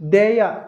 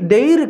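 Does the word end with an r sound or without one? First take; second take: without r; with r. First: The word ends in a vowel glide. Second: The word ends with a clear r sound. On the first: The speaker calls it right. "అది దేయ" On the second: The speaker calls it wrong. "దే దేర్ కాదు"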